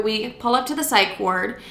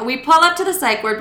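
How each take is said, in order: First: Said in the usual way. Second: High sing-song echo of own words; mock self-imitation. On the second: Storyteller mimicking her own opening line, mock self-imitation. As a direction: parody your own story opener, pitched up. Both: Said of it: "I like how I'm like".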